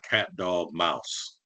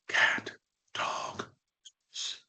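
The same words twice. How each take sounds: First: It is said in a normal voice. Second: It is whispered.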